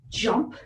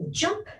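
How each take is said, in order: First: Said in the usual way. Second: High excited cue. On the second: Shown as a demonstration. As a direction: jump shot up high and bright. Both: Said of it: "I'll do it one more time".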